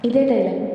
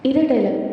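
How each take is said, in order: Both takes have the same delivery.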